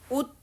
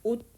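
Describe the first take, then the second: First: The final consonant is released with an audible sound. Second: The final consonant is a short unreleased t. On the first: The speaker calls it wrong. "옷 이렇게 발음 안 해요" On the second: The speaker calls it right. "옷 다 디귿으로 바뀌게 돼요"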